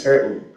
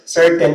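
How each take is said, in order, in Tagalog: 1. Nilalamon ang tunog ng t. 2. Buong binibigkas ang tunog ng t.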